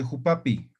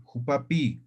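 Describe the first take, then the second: First: Said in the usual way. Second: Jupapi with its last i drawn out; lengthened final vowel. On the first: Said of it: "Lo otro sería jupapi". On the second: Shown as a demonstration. Teacher contrasting two pronunciations, long-ending jupapi. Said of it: "Ahora aquí no".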